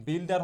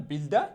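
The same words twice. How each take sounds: First: Said in the usual way. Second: বিল্ডা with open "daa" ending, no r; corrected pronunciation. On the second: Shown as a demonstration. Teacher recapping builder for learners, বিল্ডা without r. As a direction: drop the final r of বিল্ডা. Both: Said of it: "বিল্ডার হবে না".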